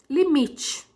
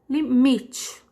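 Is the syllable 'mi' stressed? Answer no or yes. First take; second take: yes; yes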